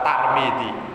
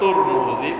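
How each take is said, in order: First: The first vowel of the name is a. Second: The first vowel of the name is u. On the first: "boleh dibaca Tarmidzi" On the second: "boleh dibaca Turmudi"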